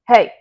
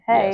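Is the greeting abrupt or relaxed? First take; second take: abrupt; relaxed. First: The word is said sharply and abruptly. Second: The word is said in a relaxed, easy way. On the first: The speaker seems negative. The speaker calls it wrong. "If you abruptly say hey" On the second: The speaker seems friendly. The speaker calls it right. "if you're just saying hey"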